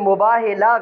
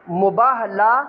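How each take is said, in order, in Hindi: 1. अंतिम अक्षर से पहले का स्वर i है। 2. अंतिम अक्षर से पहले का स्वर a है। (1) "गलत है" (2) "ठीक है जी"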